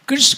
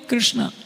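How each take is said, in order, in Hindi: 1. नाम बिना किसी अंतिम स्वर के समाप्त होता है। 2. नाम लंबे 'aa' स्वर के साथ समाप्त होता है। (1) "हम शुद्ध बोलना भी अपना पाप समझते हैं" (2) "कृष्णा बोलकर वो सोचती है कि मैं ज़्यादा समझदार हूँ"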